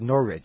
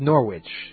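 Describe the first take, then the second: First: The middle has only an r sound, no w. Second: The middle has an r followed by a w sound. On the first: The speaker calls it right. "I was supposed to pronounce it N-O-R-R-I-C-H" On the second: The speaker calls it wrong. "one has an R and a W ... I pronounce that Norwich"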